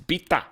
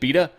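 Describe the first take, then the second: First: The name is said in a native Persian way. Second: The name is said in a plain anglicized way. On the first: The speaker calls it right. "It's Bita" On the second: The speaker calls it wrong. "if you just said Bita"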